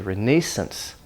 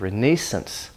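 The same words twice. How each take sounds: First: It is said with a British pronunciation. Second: The same.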